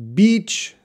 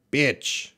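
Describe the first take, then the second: First: "Beach" with a long ee, drawn out; long vowel. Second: "bitch" with a short i, unlike long ee; short vowel. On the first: Teacher contrasts it with a rude word, long ee in "Beach". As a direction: hold the ee in "Beach". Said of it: "It's a long sound". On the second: Teacher warns of a funny mix-up, short i in "bitch". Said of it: "Beach sounds like bitch". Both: Shown as a demonstration.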